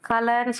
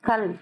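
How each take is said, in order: First: The word ends with an extra final vowel. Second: The word ends on the consonant l. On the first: The speaker calls it wrong. "கலன்னு சொல்லக்கூடாது" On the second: The speaker calls it right. "இல்ல sound தான் சொல்லணும்"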